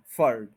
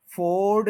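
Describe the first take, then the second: First: फर्ड as low, short furd; correct short vowel. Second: फोर्ड as long FOARD; wrong long vowel. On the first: Teacher answering own question, फर्ड as short furd. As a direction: keep फर्ड weak and brief. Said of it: "उसके बाद क्या बोलना है". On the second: Teacher warning learners, फोर्ड with long O. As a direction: stretch the O of फोर्ड. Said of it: "फोर्ड नहीं बोलना". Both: Shown as a demonstration.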